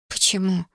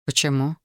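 First: Bewildered. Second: Low-voiced, simple question; questioning man. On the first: Woman thrown by his question, mildly bewildered. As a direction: echo it back, mildly at a loss. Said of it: "растерялась она". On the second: Man asks the woman why, low and plain. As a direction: ask it low and even, as the man. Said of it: "спросил он". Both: A narrator's reading.

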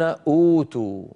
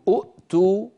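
First: أوتوا with one hamza and a long و; smooth أوتوا into a long vowel; right form أوتوا; correct form. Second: أؤتوا with two hamzas, the second closed; wrong form أؤتوا; forbidden form demo. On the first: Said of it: "يقولون أوتوا". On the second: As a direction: say أؤتوا with a hard catch before the و. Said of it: "بدل من أن يقولوا". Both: Shown as a demonstration.

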